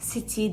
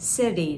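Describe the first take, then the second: First: The middle consonant is a clear t sound. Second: The middle consonant is a soft d sound. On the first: The speaker calls it wrong. "Orada city demedim" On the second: The speaker calls it right. "City dedim. ... kulağa daha yumuşak geliyor"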